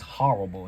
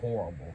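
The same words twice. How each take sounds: First: The first syllable is said like 'ha'. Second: The first syllable is said the usual 'hor' way.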